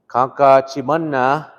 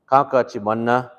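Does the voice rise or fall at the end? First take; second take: rise; fall. First: The pitch goes up, like a question. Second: The pitch goes down, like a statement.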